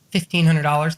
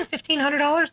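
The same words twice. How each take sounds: First: Said in the usual way. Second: Imitating clients, pitched way up; high-pitched echo. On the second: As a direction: echo the sum as a high question. Repeated as clients' reaction.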